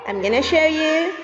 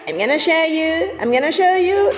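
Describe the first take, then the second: First: Said in the usual way. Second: Excited reveal. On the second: Pretend. Teasing kids before the reveal.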